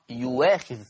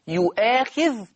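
First: A w sound replaces the glottal stop. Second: A glottal stop is heard before the long a. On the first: "تقرأ يواخذ" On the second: "كلمة يؤاخذ"

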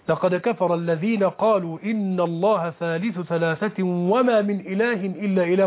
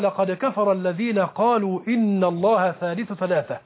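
First: The reciter runs on after ثلاثة without stopping. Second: The reciter stops after ثلاثة, then restarts. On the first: The whole sentence seems to be the claim being rejected. The speaker calls it wrong. "لو وصلنا" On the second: The second part is a reply refuting the claim. The speaker calls it right. "هنا الوقف الكافي، ثم نبدأ"

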